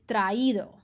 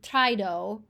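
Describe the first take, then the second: First: The two vowels are said as separate syllables. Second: The two vowels run together in one syllable. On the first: The speaker calls it right. "you're pronouncing both of these" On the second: The speaker calls it wrong. "so that you don't say"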